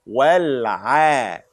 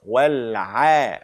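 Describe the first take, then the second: The two takes are said the same way.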